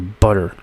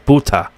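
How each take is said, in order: First: It is said with an American accent. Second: It is said with a British accent. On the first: "In America, here we say butter" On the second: "In the U K, they say buta. They say they pronounce it as buta"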